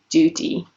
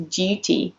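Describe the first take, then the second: First: DUTY said "doo-ty", no y glide; plain oo after the D in DUTY; American oo. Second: DUTY said "dyoo-ty"; British U. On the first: Teacher attempts the American version, DUTY as "doo-ty". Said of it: "might sound more like". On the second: Teacher gives the British take, DUTY with a YOU sound. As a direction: keep a y glide after the D in DUTY. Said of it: "like the U sound in the word you". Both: Shown as a demonstration.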